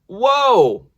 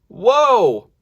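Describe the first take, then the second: No difference in how they are said.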